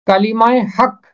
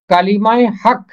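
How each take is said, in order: Both takes have the same delivery.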